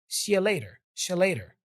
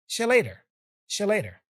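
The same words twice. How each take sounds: Both takes have the same delivery.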